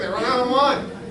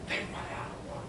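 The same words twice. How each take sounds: First: It is said aloud, not whispered. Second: It is whispered.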